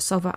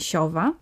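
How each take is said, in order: First: The first consonant is a hard s. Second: The first consonant is a softened s. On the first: This is how an older child says it. The speaker calls it right. "Sowa to będzie sowa" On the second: This is how a two-year-old says it. The speaker calls it wrong. "a nie siowa"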